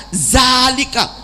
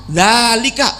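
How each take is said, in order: Both takes have the same delivery.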